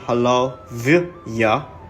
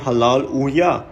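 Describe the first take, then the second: First: The last part starts with a V sound. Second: The last part starts with a U sound. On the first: The speaker calls it wrong. "We don't say Halal Vya" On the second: The speaker calls it right. "Say Halal Uya"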